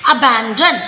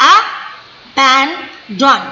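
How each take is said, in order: First: Said in the usual way. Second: Abandon very slow, a... ban... don; three separate stresses. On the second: Shown as a demonstration. Teacher showing three stresses, abandon split very slowly. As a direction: cut abandon into three beats with gaps. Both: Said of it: "तो तीन stress है".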